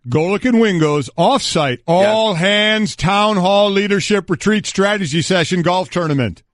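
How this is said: It is read in an altered, put-on voice.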